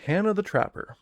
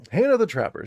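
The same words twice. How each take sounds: First: Said in the usual way. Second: Loud, high announcer call of the name; dramatic announcement. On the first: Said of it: "N P C one three one". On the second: Acted. Game master announces the new character, loudly. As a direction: proclaim the name like a herald.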